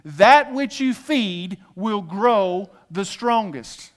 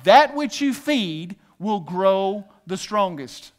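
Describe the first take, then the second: First: Slower call and response. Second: Slow call and response. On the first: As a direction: draw out "That which you feed will grow the strongest" very slowly. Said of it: "Say this with me". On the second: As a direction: lead the crowd slowly, "That which you feed" word by word. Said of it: "say this with me". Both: Shown as a demonstration.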